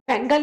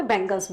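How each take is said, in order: First: Said in the usual way. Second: "बैंगल्स" with a final s, pitched lower; plural ending sounded. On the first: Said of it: "नहीं बोलते". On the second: Shown as a demonstration. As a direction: answer with "बैंगल्स", s on the end. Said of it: "बैंगल नहीं बोलते".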